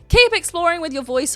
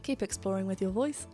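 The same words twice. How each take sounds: First: It is said forcefully and aggressively. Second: It is said in a calmer, gentler way. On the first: The speaker calls it wrong. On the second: The speaker calls it right.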